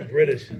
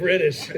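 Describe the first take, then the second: First: Said in the usual way. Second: Laughing. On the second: Real, not acted.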